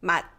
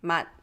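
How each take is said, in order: First: The word ends with an unreleased t sound. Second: The same.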